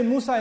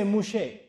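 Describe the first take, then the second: First: The middle consonant is a plain s sound. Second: The middle consonant is an sh sound. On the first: "they don't say Musa in Hebrew" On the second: "they say Mushe. That's how they pronounce it"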